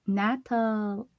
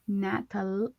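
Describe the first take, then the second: Both takes have the same delivery.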